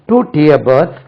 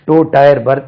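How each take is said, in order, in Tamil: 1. 'tier' 'ee' உயிரொலியுடன் சொல்லப்படும், 'tear' போல. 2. 'tier' 'eye' உயிரொலியுடன் சொல்லப்படும், 'tyre' போல. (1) "அது டயர் இல்லைங்க" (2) "இங்க டயர் தான் இருக்கு"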